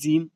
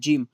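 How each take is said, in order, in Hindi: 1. शब्द की शुरुआत Z की आवाज़ से होती है। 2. शब्द की शुरुआत J की आवाज़ से होती है। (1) "ज़े से ज़ीम पढ़ने लगे" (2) "जैसे जीम हो गया"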